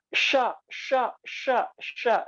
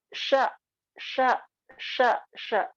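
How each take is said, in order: First: "sya" with lips pushed forward and rounded; rounded-lip shin. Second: "sya" with lips unrounded and air hissing out; correct shin. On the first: Teacher showing students the common wrong shin, lips pushed out. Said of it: "itu contoh yang kurang tepat". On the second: Teacher showing students the right shin, lips flat. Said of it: "Contoh yang insya Allah tepat". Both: Shown as a demonstration.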